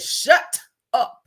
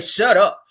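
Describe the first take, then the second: First: The two words are split apart with a break. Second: The two words run together without a break. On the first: The speaker truly means it. The speaker calls it right. "When you break it up like that, that means you mean it" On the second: It is said without real conviction. The speaker calls it wrong. "You don't say shut up"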